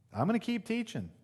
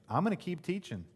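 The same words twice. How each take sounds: First: Higher insistence. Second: Steady, firm "I'm gonna keep teaching" with stress on "gonna"; calm insistence. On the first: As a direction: repeat "I'm gonna keep teaching" much higher, stress on "gonna". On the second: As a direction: say "gonna" firmly, tone falling at the end. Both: Acted. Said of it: "Jesus says".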